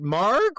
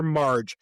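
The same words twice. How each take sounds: First: "Marg" ending in a hard g; hard-g pronunciation. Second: "Marge" ending in a j sound; soft-g pronunciation. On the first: Podcaster asking listeners about a name, "Marg" with hard g. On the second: Podcaster asking listeners about a name, "Marge" with soft g. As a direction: say "Marge" with g as in large. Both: Shown as a demonstration. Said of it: "Is it Marg or Marge?".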